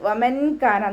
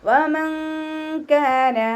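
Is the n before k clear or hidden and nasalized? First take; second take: clear; hidden. First: The n sound is pronounced clearly. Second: The n sound is hidden and nasalized. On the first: The speaker calls it wrong. "നോതരുത്" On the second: The speaker calls it right. "അതുപോലെ ഓതുക"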